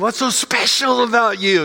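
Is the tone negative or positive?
positive. It is said in a positive, admiring tone.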